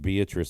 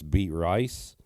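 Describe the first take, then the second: First: The name is said the usual way. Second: The name is said as two words. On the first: The speaker calls it right. "the name Beatrice" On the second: The speaker calls it wrong. "he used to always pronounce the name Beatrice Beat Rice"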